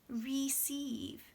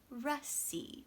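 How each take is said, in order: First: The first vowel is a full ee sound. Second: The first vowel is a weak uh sound. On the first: The speaker calls it wrong. "you might want to say receive" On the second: The speaker calls it right. "They would say ra"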